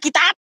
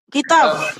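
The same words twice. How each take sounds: First: The final consonant sounds like a B. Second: The final consonant sounds like a V. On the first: It is read the way Indonesians read it. "kayak orang Indonesia" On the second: It is read the way Hebrew speakers read it. "Kalau B itu kan bisa dibaca jadi V"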